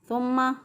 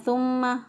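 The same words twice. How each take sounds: Both takes have the same delivery.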